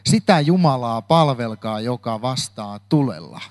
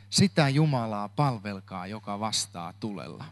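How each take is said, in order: First: Said in the usual way. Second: Repeated much softer and lower, sinking to near silence; hushed, reflective echo of the title; quiet repeat. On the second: Shown as a demonstration. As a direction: let the title settle, softly and lower.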